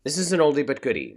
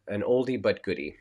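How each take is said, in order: First: Loud, fast and high; emphatic. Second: Said in the usual way. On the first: Real, not acted. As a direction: throw it out with energy. Repeats saying with emphasis.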